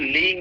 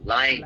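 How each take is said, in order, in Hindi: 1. पहला स्वर 'ee' जैसा लगता है। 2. पहला स्वर 'eye' जैसा लगता है। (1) "इसको लीइंग नहीं"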